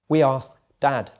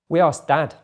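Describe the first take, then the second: First: It is said a little more slowly. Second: It is said at normal speed. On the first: "the second time a little bit slower" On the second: "once at normal speed"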